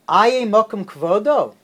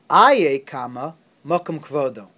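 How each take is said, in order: First: It is said as a puzzled question. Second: It is said as a firm exclamation.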